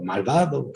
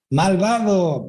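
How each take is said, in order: First: Put-on the cave echo answering the boy; soft mock echo. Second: Higher call into the cave; a boy shouting to test the echo; child calling out. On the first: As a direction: let it come back faint. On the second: Retold or imitated.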